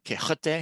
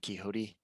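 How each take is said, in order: First: It is said with a Spanish pronunciation. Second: It is said with an American English pronunciation. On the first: "Spanish from Spain?" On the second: "That's the bad American English pronunciation of it"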